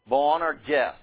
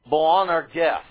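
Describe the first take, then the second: No difference in how they are said.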